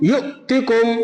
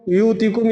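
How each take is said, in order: First: A sharp glottal catch follows the first syllable. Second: The syllables run smoothly with no glottal catch. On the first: The speaker calls it right. "झटका देना है" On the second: The speaker calls it wrong. "ये यूतिकुम पढ़ना सही है क्या?"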